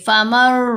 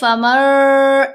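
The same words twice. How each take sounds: First: The m sound is kept short. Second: The m sound is held long. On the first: The speaker calls it right. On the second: The speaker calls it wrong.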